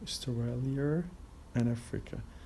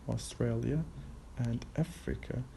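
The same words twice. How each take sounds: First: An R sound is added after Australia. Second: No R sound is added after Australia.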